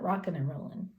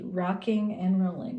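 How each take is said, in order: First: The final g sounds are dropped. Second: The final g sounds are clearly pronounced. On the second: "I said it with a G"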